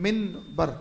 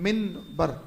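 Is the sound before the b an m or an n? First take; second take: n; n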